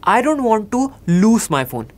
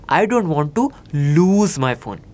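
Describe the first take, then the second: First: The word 'lose' ends with an s sound. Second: The word 'lose' ends with a z sound. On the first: The speaker calls it wrong. "गलत क्या होगा" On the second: The speaker calls it right. "सही क्या होगा"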